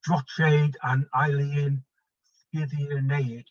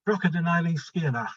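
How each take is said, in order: First: It is read with English spelling sounds. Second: It is attempted with Gaelic-like sounds. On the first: "pronounce it as it's written" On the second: "I've learned a bit of Gaelic, I'll have a go"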